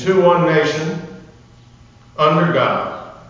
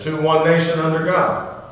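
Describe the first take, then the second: First: There is a pause after nation. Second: There is no pause after nation. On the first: The speaker calls it wrong. "we normally say" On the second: The speaker calls it right. "There's no comma"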